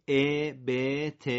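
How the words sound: The short vowel sounds like an 'e'. "با صدای فارسی قرائت میکنیم"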